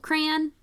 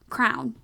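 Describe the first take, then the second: First: It is one syllable rhyming with man. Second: It sounds exactly like the word crown. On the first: "like rhymes with man. So like as one syllable" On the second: "they pronounce it as crown"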